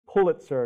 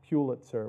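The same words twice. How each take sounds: First: The first syllable sounds like the word 'pull'. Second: The first syllable does not sound like 'pull'. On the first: The speaker calls it right. "It's Pulitzer, like, sir, can you pull it?" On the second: The speaker calls it wrong. "not Pulitzer, which is what many people say"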